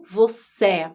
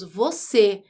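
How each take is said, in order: First: "você" mispronounced with an open final é; wrong open vowel. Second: "você" with a closed final ê; stressed closed ê at the end of "você"; closed vowel. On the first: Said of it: "não você". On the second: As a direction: say "você" ending in a close e, as in standard speech. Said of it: "ela é fechada". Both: Shown as a demonstration.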